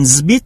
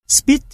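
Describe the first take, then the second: First: "zbit" with a voiced z; buzzing z at the start of "zbit"; voiced assimilation. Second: Said in the usual way. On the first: Shown as a demonstration. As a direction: voice the first sound of "zbit". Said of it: "được phát âm thành âm hữu thanh Z". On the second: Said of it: "được phát âm thành zbit".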